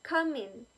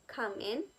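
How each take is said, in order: First: "in" carries the stress, "Come" light. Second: "in" rising and stronger than "Come"; stress on in. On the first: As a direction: keep "Come" light, push "in". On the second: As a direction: let "Come" stay light and land on "in". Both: Shown as a demonstration. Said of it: "In has more stress rather than come".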